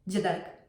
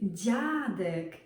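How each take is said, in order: First: The first consonant is short and hard. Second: The first consonant is long and soft. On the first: The speaker calls it wrong. "It's not dziadek" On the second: The speaker calls it right. "It's dziadek"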